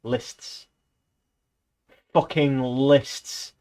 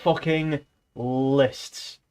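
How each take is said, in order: First: Exasperated. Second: Very slow, each word drawn out; dragged-out groan of complaint. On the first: Complaining about Orwell. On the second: Griping to viewers about Orwell's lists, very slow and weary. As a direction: moan it like you're fed up. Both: Real, not acted.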